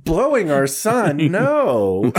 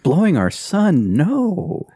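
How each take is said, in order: First: Much higher, slow mock-shocked denial; hammed-up denial. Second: Higher, slow hammed-up denial; mock shocked denial. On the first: Retelling the actress denying it to her husband, hammed-up. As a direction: deny it with exaggerated innocence. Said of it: "and she's like". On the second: Friend echoing the actress's denial as a punchline, mock shocked. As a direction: echo the line with fake innocence. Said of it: "friend echoes the quote".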